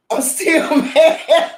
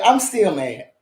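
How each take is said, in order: First: Drawn out very slowly with a laugh in it; slow, higher, laughing "still mad". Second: Said in the usual way. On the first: Real, not acted. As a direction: crack up while insisting you're mad. Laughs through repeating it.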